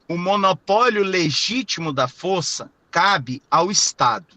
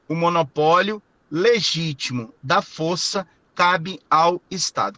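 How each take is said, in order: First: The sentence is spoken at a normal pace. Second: The sentence is spoken slowly and deliberately.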